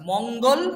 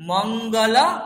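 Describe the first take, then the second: First: The word ends on the consonant l. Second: The word ends with a full vowel after l. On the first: The speaker calls it wrong. "মঙ্গল বলবো না" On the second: The speaker calls it right. "মঙ্গল আর মঙ্গলা দুটো আলাদা"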